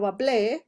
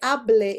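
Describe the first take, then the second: First: The stress is on the last syllable. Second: The stress is on the first syllable. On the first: It is the past tense, I spoke. The speaker calls it right. "instead of hable" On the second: It is the present subjunctive. The speaker calls it wrong. "this is the present subjunctive"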